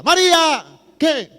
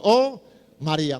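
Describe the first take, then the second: First: High, loud yell across the house; calling out loud. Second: Said in the usual way. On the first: Retold or imitated. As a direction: shout for María from the sofa. Friend yelling for sister. (llamado a gritos, agudo y fuerte)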